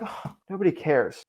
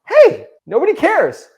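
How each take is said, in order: First: It is said in a sad, defeated tone. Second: It is said in an upbeat, cheerful tone.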